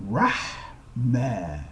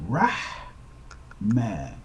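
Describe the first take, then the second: Both takes have the same delivery.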